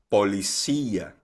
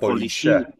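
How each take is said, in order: First: The ending has two syllables, with stress on í. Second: The ending glides together into one syllable. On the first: The speaker calls it right. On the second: The speaker calls it wrong.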